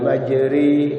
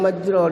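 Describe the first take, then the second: First: The vowel after r leans toward 'e'. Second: The vowel after r is a full open 'a'. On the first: The speaker calls it right. "Imalah ini dibaca miring antara fathah dan kasroh. Harus dibaca" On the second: The speaker calls it wrong. "Tidak boleh dibaca majroh"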